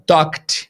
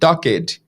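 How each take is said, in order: First: The ending is a short t sound. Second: The ending is an extra syllable. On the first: The speaker calls it right. "some of your students are not saying" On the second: The speaker calls it wrong. "They are saying"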